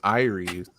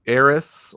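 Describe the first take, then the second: First: It sounds like the ordinary name Iris. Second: It sounds like the Final Fantasy name Aeris. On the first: "the way we pronounce it" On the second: "like in Final Fantasy seven"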